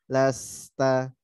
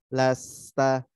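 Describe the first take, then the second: No difference in how they are said.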